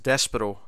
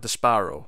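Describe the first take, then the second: First: The name is said quickly and clipped. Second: The name is drawn out like 'despair'. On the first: This is how the show says it. "They kept saying it sort of quickly like that" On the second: The name comes from the word despair. "a variation of the word despair"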